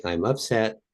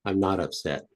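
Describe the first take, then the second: First: "upset" raised and left hanging; demonstrated statement. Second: "not" stressed, falling to the end; calm denial. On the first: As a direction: state "upset" as the first half of a pair. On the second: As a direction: settle downward on "not upset". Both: Shown as a demonstration. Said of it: "Okay, you could say".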